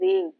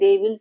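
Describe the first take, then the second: First: It is said as one contracted syllable. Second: It is said as two full words. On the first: "pronounce কেনে কৰিম they'll বুলি কম" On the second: "they'll মানে they will"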